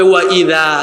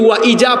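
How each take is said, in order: First: The middle consonant is a soft th sound. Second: The middle consonant is a buzzing z sound. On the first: The speaker calls it right. "নরম হয় তাই না, জিব্বার আগা দাঁতের আগায় লাগে, এটা হবে ওয়া ইদা" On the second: The speaker calls it wrong. "ওয়া ইজা পড়লো বাংলা উচ্চারণ"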